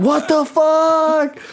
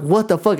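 First: Very high, drawn-out comic cry; mock panicked wail. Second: Raised-pitch startled question; mildly alarmed, acting out the first shock; startled retelling. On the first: Retelling his panic, still peeing. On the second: Retelling his startled reaction to touch.

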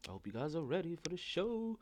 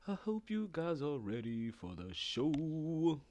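First: Said in the usual way. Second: Slow stretched-out announcer tease; slow drawn-out host read. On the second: Shown as a demonstration. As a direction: stretch each word out slowly. Warming up host line.

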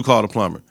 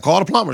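First: Said in the usual way. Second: Dismissive Rock. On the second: Retold or imitated. Rock telling tenants to call the plumber, dismissive. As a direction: toss it off like it's not her problem.

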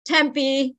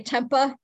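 First: "Tempe" said tem-PEE, ending in a long ee; correct local pronunciation. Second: "Tempa" ending in a loose uh; visitors' mispronunciation. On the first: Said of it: "how people mispronounce some of the names". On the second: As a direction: say "Tempa" as TEM-puh, losing the ee. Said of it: "they say Tempa". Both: Shown as a demonstration.

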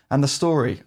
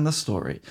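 First: Said in the usual way. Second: "the story" repeated lower and softer, savoured; dramatic emphasis. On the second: Real, not acted. Awed repeat praising the game's story, lower and softer. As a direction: drop the voice on "the story" in awe.

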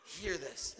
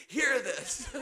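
First: Quiet. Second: Laughing. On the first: Preacher repeats line seriously. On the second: Preacher repeats line laughing. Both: Real, not acted.

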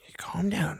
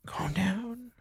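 First: Said in the usual way. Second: Hushed whisper, high and soft. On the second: Acted. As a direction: whisper it to calm him down.

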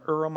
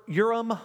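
First: "Urim" without the y, as ER-um; unsure pronunciation. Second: "Urim" begun with a y sound; tentative pronunciation. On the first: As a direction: try "Urim" quickly as ER-um. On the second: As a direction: try "Urim" as YOOR-um. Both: Shown as a demonstration. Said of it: "don't know exactly how to pronounce it".

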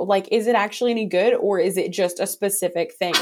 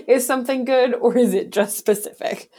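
First: Said in the usual way. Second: Incredulous. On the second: Acted.

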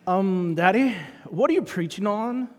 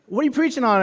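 First: Put-on Australian lilt, rising on Daddy; Australian accent. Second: Said in the usual way. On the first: Daughter asking her preacher dad, mock Australian accent. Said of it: "Suddenly she became Australian". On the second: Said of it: "I'm gonna just drop the accent".

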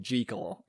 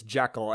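First: "Jekyll" said JEE-kul, long ee; "Jekyll" with a long first vowel, as in jeep; movie's odd pronunciation. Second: "Jekyll" said JECK-ul, short e; "Jekyll" with a short first vowel, as in deck; correct pronunciation. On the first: Retold or imitated. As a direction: say "Jekyll" to rhyme with treacle. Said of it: "they do keep saying Jekyll". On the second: Shown as a demonstration. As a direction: say "Jekyll" to rhyme with freckle. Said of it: "I really think they're saying it wrong".

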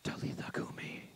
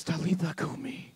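First: Unvoiced whisper; whispered Aramaic command. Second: Low soft tender call; hushed Aramaic command; soft Jesus command. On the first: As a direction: breathe it like a secret. Repeated as whisper. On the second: Acted. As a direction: speak softly to wake her. Jesus speaks to dead girl.

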